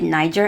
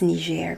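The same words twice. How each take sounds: First: The name is said with an English pronunciation. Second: The name is said with a French pronunciation. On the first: The speaker calls it wrong. "I used to call it Niger, and he was very offended" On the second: The speaker calls it right. "It's Niger because it's French"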